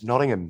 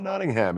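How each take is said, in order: First: The name is said with a British pronunciation. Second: The name is said with an American pronunciation. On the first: This is how the locals correct it. The speaker calls it right. "they're like, it's Nottingham, mate" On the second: This is the speaker's own habitual way of saying it. The speaker calls it wrong. "I see that name and I'm like, oh"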